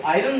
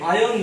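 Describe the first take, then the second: First: आयरन said as eye-run, the r clearly sounded; आयरन pronounced "i-ron" letter by letter; wrong iron. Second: आयरन said as "aa-yon", silent r; the right way: आयरन without any r sound; आयरन like "ayon", r dropped; correct iron. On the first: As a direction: demo the mistake: आयरन with a spoken r. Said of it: "इसको आयरन नहीं बोलते हैं". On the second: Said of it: "इसको आयरन बोलते हैं". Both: Shown as a demonstration.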